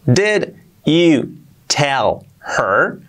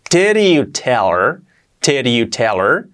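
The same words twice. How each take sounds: First: Very slow "Did you tell her", word by word; one by one, well pronounced. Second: Slow "Did you tell her" as "deriu teler"; linked, H omitted. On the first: Teacher modelling each word, slow and separated. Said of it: "una por una, bien pronunciadas". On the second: Teacher showing native habit, slowly linked without h. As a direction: drop the h of "her" and join it to "tell". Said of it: "muchos nativos lo omiten". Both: Shown as a demonstration.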